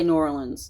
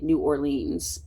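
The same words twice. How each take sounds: First: It is said in the speaker's own way. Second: It is said the way non-Southerners say it. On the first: "me personally, I say New Orleans" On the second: "a person not from the South, they would say New Orleans"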